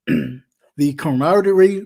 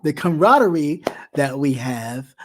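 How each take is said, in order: First: Camaraderie stumbled, syllables swallowed; fumbled word. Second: Camaraderie said clean, every syllable; careful retry. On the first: Thanking viewers, garbled camaraderie. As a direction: trip over camaraderie, mid-word. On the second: Thanking viewers, careful corrected camaraderie. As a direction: land camaraderie properly this time. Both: Real, not acted. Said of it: "can I get it out?".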